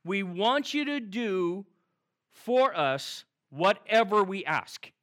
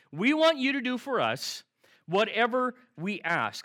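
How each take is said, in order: First: Slow, deliberate reading of the disciples' request; slow quote. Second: Emphatic quote. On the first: Pastor sets up the disciples' request, slow and deliberate. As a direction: lay out each word slowly. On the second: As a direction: lean hard on want. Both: Retold or imitated. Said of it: "you ready?".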